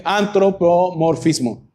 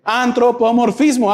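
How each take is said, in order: First: Antropomorfismo said slowly, syllable by syllable; slow deliberate Antropomorfismo. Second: Said in the usual way. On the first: Shown as a demonstration. Preacher teaching the word to the congregation, slowly. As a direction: spell out Antropomorfismo slowly for the class.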